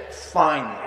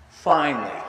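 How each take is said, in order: Both takes have the same delivery.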